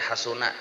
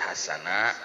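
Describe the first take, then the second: First: The middle vowel is a u sound. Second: The middle vowel is an a sound. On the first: The following word is the subject of the verb. "boleh dibaca hasuna" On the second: The following word is the object of the verb. "boleh dibaca hasana"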